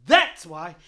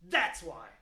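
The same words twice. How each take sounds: First: "That's why" punched out much louder; loud emphatic repeat. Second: Said in the usual way. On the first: Real, not acted. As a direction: hammer the point home loudly.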